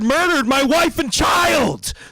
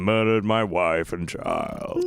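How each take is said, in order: First: It is said loudly and angrily, full of rage. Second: It is said flatly and sleepily, without feeling. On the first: The speaker is furious about the loss. The speaker calls it right. "you should have more like it like like just rage" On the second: The speaker seems not to care about the loss. The speaker calls it wrong. "it sounds like you're falling asleep as you're telling me this"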